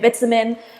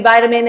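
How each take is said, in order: First: It is said with a British pronunciation. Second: It is said with an American pronunciation. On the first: "in England we say vitamin" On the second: "you Americans say vitamin"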